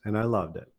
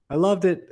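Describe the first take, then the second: First: Said in the usual way. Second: "loved" hit much higher and louder; emphatic repeat. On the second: Real, not acted. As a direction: lift and punch "loved" on the repeat.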